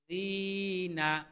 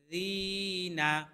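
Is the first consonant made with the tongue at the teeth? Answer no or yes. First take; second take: no; yes. First: The first consonant is made without touching the teeth. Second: The first consonant is thin, with the tongue at the teeth. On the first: The speaker calls it wrong. "জিনা হবে না কিন্তু" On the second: The speaker calls it right. "পাতলা করে"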